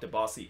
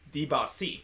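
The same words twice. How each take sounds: First: The name is pronounced in an English way. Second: The name is pronounced in a French way. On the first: The speaker calls it wrong. "it's not Debasi" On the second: The speaker calls it right. "that's kind of like the French French pronunciation"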